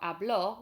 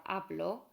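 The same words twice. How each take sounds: First: "habló" said as ab-LO, last syllable punched; past-tense "habló", accented on the o; stress on end syllable. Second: "hablo" said as AB-lo, opening syllable stressed; present-tense "hablo", weight on the first syllable. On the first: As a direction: put the weight on the final o of "habló". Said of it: "with an accent on the O". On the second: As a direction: keep the final o of "hablo" light. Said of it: "with no accent on the O". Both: Shown as a demonstration.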